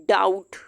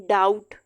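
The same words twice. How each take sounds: Both takes have the same delivery.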